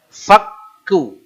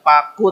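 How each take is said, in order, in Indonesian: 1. Bunyi k-nya ditekan dan ganda. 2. Bunyi k-nya pendek dan tunggal. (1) "tekan di sini karena kafnya ada tasydid" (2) "bukan paku"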